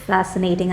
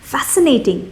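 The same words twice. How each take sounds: First: The word sounds flat, sarcastic and unimpressed. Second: The word sounds genuinely excited and enthusiastic. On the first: The topic is actually boring. "she said that in a very sarcastic way" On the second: The topic is truly interesting. "She did not say it fascinating"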